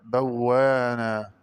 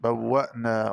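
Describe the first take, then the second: First: بوانا with a long aa and no glottal stop; smooth drawn-out aa in بوانا; hamza as alif. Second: Said in the usual way. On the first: Shown as a demonstration. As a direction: say بوانا slowly as "bawwaanaa". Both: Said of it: "ببدال الهمزة ألفا مادية".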